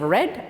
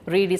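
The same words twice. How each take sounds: First: The word sounds like red. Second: The word does not sound like red. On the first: It is the past tense. "In the past tense we say read, R E D it sounds" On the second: It is the present tense. "Read is present"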